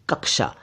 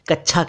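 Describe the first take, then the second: First: The middle consonant sounds like 'ksh'. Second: The middle consonant sounds like 'ch'. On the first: The speaker calls it right. "सही उच्चारण तो साहब कक्षा ही है" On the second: The speaker calls it wrong. "कई लोग इसे कच्छा कह देते हैं"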